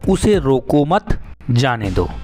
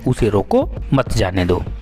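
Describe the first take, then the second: First: There is a pause after the third word. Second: There is a pause after the second word. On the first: "जो अल्प विराम चिन्ह है मत के बाद लगा है" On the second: "अर्थात किसी व्यक्ति को रोकना है, उसे आगे बढ़ने नहीं देना है"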